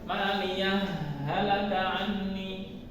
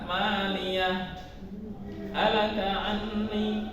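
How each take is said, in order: First: Halaka merges into anni with no break. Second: There is a brief stop after halaka. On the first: "Yang kedua mengidghamkan hak pertama ke hak kedua" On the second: "Kemudian yang ketiga saktah"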